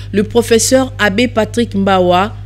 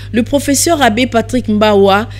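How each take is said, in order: The two takes are said the same way.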